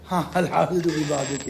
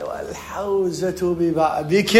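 First: Said in the usual way. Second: Very slow, drawn-out sheikh's pronouncement; sheikh giving advice. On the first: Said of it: "أنا هم أقول لك". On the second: Retold or imitated. Teacher quotes the sheikh handing out advice, slow pronouncement. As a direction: imitate a sheikh, stretching every word solemnly. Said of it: "على قولة الشيخ مرات من يعطي معلومة".

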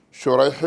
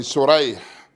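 First: "شريح" starting with a sh sound, Shurayḥ; dotted first letter, sheen. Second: "سريح" starting with a plain s, Surayḥ; undotted first letter, seen. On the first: Teacher naming the first of two narrators, "شريح" with sh. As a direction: say "شريح" with sheen, shu-RAYḥ. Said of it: "فشريح بإعجام الأول". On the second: Teacher contrasting the other narrator's name, "سريح" with s. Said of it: "وبإهماله سين". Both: Shown as a demonstration.

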